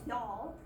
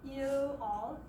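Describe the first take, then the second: First: The words are slurred into one syllable. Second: Both words are said fully and separately.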